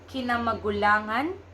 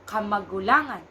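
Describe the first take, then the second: First: The word is said with six syllables. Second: The word is said with five syllables. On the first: "six syllables" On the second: "from six syllables, it will become five"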